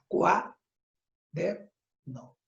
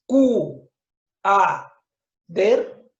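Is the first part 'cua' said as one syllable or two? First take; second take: one; two. First: Cua is said together as one syllable. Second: Cu and a are split into two syllables. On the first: The speaker calls it right. "Lo correcto es decir" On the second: The speaker calls it wrong. "¿Dices Q, A, der? No"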